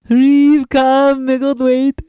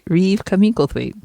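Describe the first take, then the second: First: It is said in a put-on alien voice. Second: It is said in a normal speaking voice.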